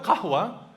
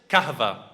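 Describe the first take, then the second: First: The middle consonant is a w sound. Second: The middle consonant is a v sound. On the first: "So the word qahwa" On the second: "So they started to call it kahva"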